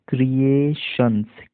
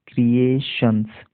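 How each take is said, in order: No difference in how they are said.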